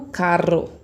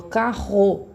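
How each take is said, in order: First: Carro with the rr tapped on the tongue tip like caro; wrong tapped R. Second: Carro with the rr rasped from the back of the throat, slowly; correct throaty R. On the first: Teacher shows how carro is not said. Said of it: "Eu não falo carro". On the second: Teacher shows the right way to say carro. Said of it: "eu falo carro". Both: Shown as a demonstration.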